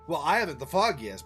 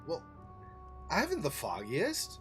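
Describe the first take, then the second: First: It is said quickly without a pause after well. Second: It is said unhurried with a pause after well. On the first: The speaker calls it wrong. "She's rushing a little bit too much also" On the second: The speaker calls it right. "Wouldn't you say it more like"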